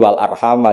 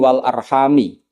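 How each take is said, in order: First: The last word ends with an 'a' vowel. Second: The last word ends with an 'i' vowel. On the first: The word is joined to 'Allah'. "jumhur ngikuti qiraah masyhurah" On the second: The word is joined to the pronoun 'bihi'. "qiraatu Ibnu Amrin itu mengatakan"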